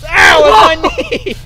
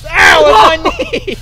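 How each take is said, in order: First: Loud high yelp replayed for the camera; reenacted pain cry. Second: Loud, high yelp of real pain; pain cry. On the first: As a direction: act out the hurt for viewers. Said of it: "what Sam did with the shovel". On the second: Real, not acted. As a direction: cry out sharply from a knee hit. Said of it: "Hurts like a bitch".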